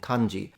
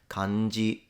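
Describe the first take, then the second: First: It is said with English-style pronunciation and stress. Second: It is said with flat Japanese pitch, no accent. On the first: "I'm adapting the pronunciation to English" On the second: "It's a heiban pattern, so accentless"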